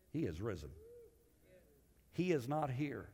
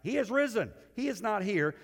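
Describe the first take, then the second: First: Hushed first reading. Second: Proclaimed reading. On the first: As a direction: read it quietly, almost to yourself. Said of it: "I can imagine". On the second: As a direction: proclaim it as triumphant news. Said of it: "let me read it to you again". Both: Shown as a demonstration.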